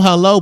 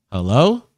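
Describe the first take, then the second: First: Said in the usual way. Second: A questioning, rising "Hello?"; puzzled rising "Hello?" like a question mark; confused hello. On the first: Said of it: "never like a stern hello". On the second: Shown as a demonstration. On a stream, showing his confused phone greeting, questioning. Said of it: "It's always like a confused hello".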